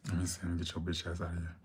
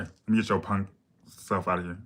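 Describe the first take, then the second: First: Quick, soft cursing dismissal; cursing version. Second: Said in the usual way. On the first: Real, not acted. Streamer blocking a rude commenter, quick soft cursing. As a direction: mutter the insult fast under her breath. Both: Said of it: "I'm trying to stop cursing".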